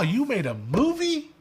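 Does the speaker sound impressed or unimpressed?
impressed. It sounds amazed and impressed. Making a movie was rare and remarkable. "back in the day you made a movie like, oh wow"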